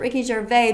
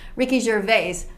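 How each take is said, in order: First: The final S of the surname is silent. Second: The final S of the surname is pronounced. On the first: This follows French pronunciation habits. The speaker calls it wrong. "in French, that's how you would say it. You would not pronounce the S" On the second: This is how the man says his own name. The speaker calls it right. "he clearly says Ricky Gervais"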